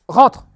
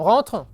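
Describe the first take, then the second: First: It is said suddenly, in a firm, commanding tone. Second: It is said lightly, in a relaxed, open tone. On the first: Coming in is not negotiable. "quand j'ai dit rentre, j'ai changé l'intonation de la voix tout d'un coup" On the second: There is room to negotiate about coming in. "c'est la voix du on peut négocier un petit peu sur le rentre"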